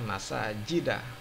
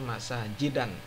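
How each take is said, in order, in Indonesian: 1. Kata ini berakhir dengan vokal biasa. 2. Kata ini berakhir dengan bunyi n tambahan. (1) "dibaca masajida" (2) "tidak boleh dibaca"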